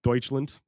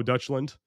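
First: Deutschland said like "Doytch-land"; corrected Deutschland. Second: Deutschland said like "Dutch-land"; mispronounced Deutschland. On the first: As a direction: give Deutschland an "oy" in the first syllable. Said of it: "I've immediately lost my two German viewers". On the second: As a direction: give Deutschland an American "Dutch" first syllable. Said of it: "I have an accent". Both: Real, not acted.

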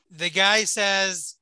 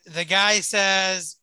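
No difference in how they are said.

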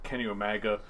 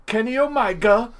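First: Said in the usual way. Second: High, loud mock British delivery; KENNY OMEGA called out high with a put-on British accent; William Regal. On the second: Showing friends a British wrestler's delivery, loud impression. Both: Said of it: "that's how Regal would say".

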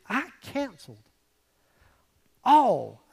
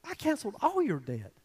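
First: "I canceled" then a pause and a loud "all"; "all" dropped in loud after a pause; pause before all. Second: "all" leaned on within "I canceled all your debt"; weight the word "all" in a flowing line; reading it through with "all" stressed. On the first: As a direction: hold "I canceled", then hit "all" hard after a beat. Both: Shown as a demonstration. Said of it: "the word all".

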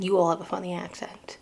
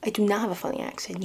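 First: "You" hit first and hard; stress on you. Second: "do" punched with a falling tune; stress on do. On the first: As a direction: throw the weight onto "You" in "You all". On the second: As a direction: lean hard on "do" in "I do not". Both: Retold or imitated. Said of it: "I'm just like".

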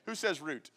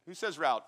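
First: "route" rhyming with boot; route as "root". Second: "route" rhyming with out; route as "rowt". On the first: Preacher asks for a show of hands, "route" said as root. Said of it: "how many of you say route". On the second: Preacher asks for a show of hands, "route" said as rowt. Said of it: "How many of you say route". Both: Shown as a demonstration.

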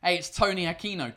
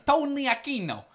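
First: Lightly put-on Brooklyn accent. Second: High-pitched, hammed-up Brooklyn accent; exaggerated Brooklyn accent. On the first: Host announcing Tony Aquino's name, in a Brooklyn accent. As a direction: introduce the name with a Brooklyn twang. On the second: Host playfully repeating a name, in exaggerated Brooklyn accent. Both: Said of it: "in, like, a Brooklyn accent".

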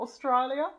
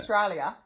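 First: "Australia" pitched high, rising like a question in an Australian twang; Australian rising accent. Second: "Australia" in a loud mock-Australian twang; Australian accent attempt. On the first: Retrying "Australia" for co-host, Australian accent rising at the end. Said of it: "You have to go up at the end". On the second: Co-host asked for "Australia", botched Australian accent attempt. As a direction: have a poor go at "Australia" in Australian. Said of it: "Can you say Australia?". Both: Shown as a demonstration.

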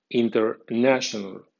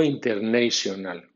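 First: International with nation said NASH-un, inter-NASH-un-al; correct English. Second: International with nation said NAY-shun, inter-NAY-shun-al; common wrong way. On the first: Teacher then gives the correct pronunciation. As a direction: give international its proper English sound. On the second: Teacher warns against the usual mispronunciation. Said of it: "como vulgarmente suele usarse". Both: Shown as a demonstration.

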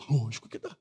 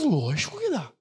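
First: Softer, lower repeat; soft echo. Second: Said in the usual way. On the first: Shown as a demonstration. Pastor repeats the answer, soft and low. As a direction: murmur it again in agreement.

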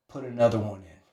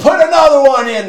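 First: Low, soft command; quiet order. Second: High, loud barked order; going crazy. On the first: Coach calmly pushing the smoker further, quiet order. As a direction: give the order coolly under your breath. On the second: Coach overriding a crying smoker, crazed shout. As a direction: shout it over his protests. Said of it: "He's going crazy on this guy". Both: Retold or imitated.

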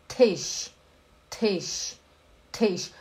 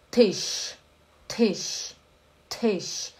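The two takes are said the same way.

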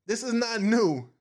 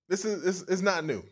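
First: New hit high and falling; this is not new, said firmly; stress on new. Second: Is pressed with a falling tune; this IS not new, insistently; stress on is. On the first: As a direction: land hard on new. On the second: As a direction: lean on the word is. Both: Shown as a demonstration.

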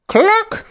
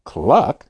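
First: High emphatic cluck; insistent chicken cluck. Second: Low, questioning cluck; puzzled cluck. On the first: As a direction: cluck urgently like a hen. Boy insists to Grandma. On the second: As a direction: cluck back confused. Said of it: "Grandma was confused". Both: Acted.

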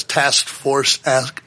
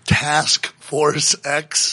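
First: Said in the usual way. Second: "Task Force X" very slowly, word by word; careful tongue-twister retake. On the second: Real, not acted. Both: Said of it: "that's a tongue twister".

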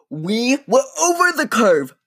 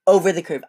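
First: "over" said high and pushed hard, the rest falling; stressed over. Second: Said in the usual way. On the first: Real, not acted. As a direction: land hard on "over" as the car tips up.

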